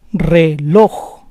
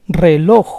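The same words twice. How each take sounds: First: Reloj split as re-LOJ; syllable by syllable. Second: Said in the usual way. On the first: Shown as a demonstration. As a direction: say Reloj in parts, stressing LOJ. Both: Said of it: "the stress is on the last syllable".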